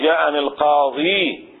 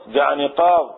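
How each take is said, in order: First: "القاضي" slow, ending in long ee. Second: "قاض" stopped on the d sound; without the ya. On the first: Teacher showing the nominative with the article, with ya. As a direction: draw out the final ya of "القاضي". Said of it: "بالياء". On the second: Teacher showing the form before the article, without ya. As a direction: end "قاض" on its consonant, no ee. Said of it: "بدون الياء". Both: Shown as a demonstration.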